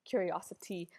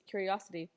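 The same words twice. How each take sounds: First: The t sound is pronounced clearly and hard. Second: The t sound is softened, not said hard.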